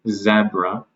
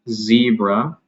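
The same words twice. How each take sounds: First: It is said with a British pronunciation. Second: It is said with an American pronunciation. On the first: "because of the Z in British or Australian English" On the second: "because of the Z in American English"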